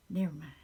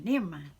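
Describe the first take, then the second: First: Letting the emotion go, quieter; softer never mind. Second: Sudden loud cut-off, fighting back tears; pushing the tears away with a burst; blurted never mind. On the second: Stopping herself from crying while talking about a movie, loud and abrupt. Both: Real, not acted. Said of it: "I'll start crying".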